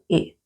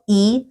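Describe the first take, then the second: First: The vowel is short, relaxed and without effort. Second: The vowel is tense and strong, like Spanish i. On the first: The speaker calls it right. "sino solo I" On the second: The speaker calls it wrong. "No I"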